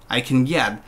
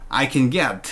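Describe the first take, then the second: Both takes have the same delivery.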